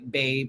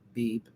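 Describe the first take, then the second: First: It is said in an ordinary, plain voice. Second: It is said in a put-on, imitating voice. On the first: The speaker calls it wrong. "I don't say it like babe" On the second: The speaker calls it right. "I have to say it just like she says it"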